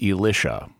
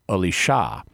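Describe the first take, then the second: First: It is the liturgical guide pronunciation of the name. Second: It is the Hebrew pronunciation of the name. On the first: The speaker calls it wrong. "pronounce the perfectly normal name Elisha as Elisha, which is just wrong on so many levels" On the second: The speaker calls it right. "the Hebrew pronunciation, which is Elisha"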